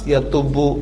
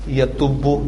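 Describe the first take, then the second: Both takes have the same delivery.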